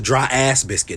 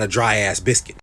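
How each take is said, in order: First: The word 'ass' carries strong emphasis. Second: The word 'ass' carries no special emphasis. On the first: The speaker calls it wrong. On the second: The speaker calls it right.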